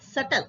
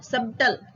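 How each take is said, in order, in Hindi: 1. B मौन होता है। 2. B उच्चारित होता है। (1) "it's called subtle. B is silent" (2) "not subtle"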